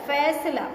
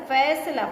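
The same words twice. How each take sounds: Both takes have the same delivery.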